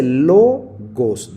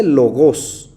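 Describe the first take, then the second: First: Logos slow and loud, first syllable LO pressed; stress on LO. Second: Logos said with the stress moved to the last syllable, gos; the wrong oxytone reading. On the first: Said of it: "el acento no aparece sobre la última". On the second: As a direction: put the weight on the end of logos. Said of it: "no dice logos". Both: Shown as a demonstration.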